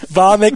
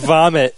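First: The word ends with an ks sound. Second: The word ends with a plain t sound. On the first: The speaker calls it wrong. "Vomit instead of vomit" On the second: The speaker calls it right. "instead of vomit"

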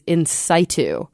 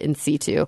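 First: Situ begins with a sound like sight. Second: Situ does not begin like sight. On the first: This is an alternative American pronunciation. "the American pronunciation of in situ is" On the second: This is the usual European pronunciation. "every professor I've ever heard say it out loud always said in situ"

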